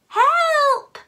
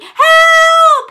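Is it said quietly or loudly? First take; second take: quietly; loudly. First: It is said quietly. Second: It is said loudly.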